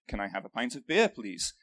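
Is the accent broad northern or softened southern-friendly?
softened southern. It is said in a softened, more southern accent. This is how he talked so southerners understood him. "I actually had to sort of change the accent uh, that I speak with so people could understand me better"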